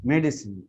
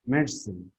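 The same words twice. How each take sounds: First: Medicine in three full syllables, med-i-sin; American way: medicine with all three syllables. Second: Medicine clipped to two syllables, med-sin, falling; British way: medicine as med-sin. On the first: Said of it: "or American are telling medicine". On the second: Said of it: "the British are giving". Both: Shown as a demonstration.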